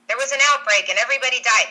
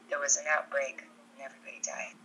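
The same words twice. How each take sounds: First: It is said in a voice unlike the character's. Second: It is said in the character's own voice. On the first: The speaker calls it wrong. "No, no, no, that's not right" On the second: The speaker calls it right. "There we go. There's Alice, right?"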